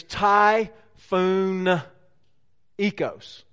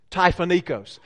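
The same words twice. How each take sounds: First: Slow, stretched-out Southern twang; Southern-twanged Greek, syllable by syllable. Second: Southern twang, syllables run together; Southern-twanged Greek at a natural pace. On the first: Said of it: "say this with a southern twang". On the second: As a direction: say the Greek word in one go, Southern-style. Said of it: "say it with a southern twang". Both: Shown as a demonstration.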